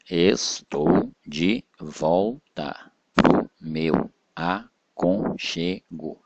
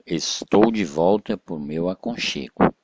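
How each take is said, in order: First: "Estou de volta pro meu aconchego" split into slow, separate syllables. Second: Said in the usual way. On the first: Shown as a demonstration. Teacher splitting a verse for pupils, syllable by syllable. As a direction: break every syllable apart with a pause. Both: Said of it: "separação de sílaba normal".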